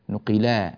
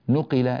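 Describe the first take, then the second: First: The final long vowel is pressed and lengthened. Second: The final vowel is short and unstressed. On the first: The speaker calls it right. "بهذا الضغط على الألف هكذا على اللام" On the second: The speaker calls it wrong. "لا نقول"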